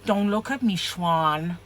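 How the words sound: It is said in a put-on character voice. "I've got to get in character now"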